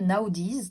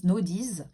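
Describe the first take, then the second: First: Naudis spelled out as na-o-diz, three syllables, rising at the end; first try at the rune name. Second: Naudis said as no-diz, two syllables, falling; settled pronunciation. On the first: Reading the rune name off the card, spelled out with a rise. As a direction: sound out Naudis as na-o-diz, ending with a lift. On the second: Repeating the rune name to viewers, now as a settled no-diz. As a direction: say Naudis smoothly as no-diz, coming down at the end. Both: Shown as a demonstration.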